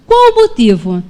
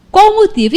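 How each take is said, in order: First: Said in the usual way. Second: "Qual o motivo?" asked again higher, pressing hard; insistent repeat. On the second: Retold or imitated. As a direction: push the question, demanding an answer.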